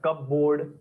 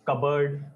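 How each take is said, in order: First: The p is sounded and it ends in 'board'. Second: The p is silent and the ending is reduced. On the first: The speaker calls it wrong. "कपबोर्ड नहीं बोलना है" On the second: The speaker calls it right. "It is कबर्ड. थोड़ा एकदम smoothly बोलना है"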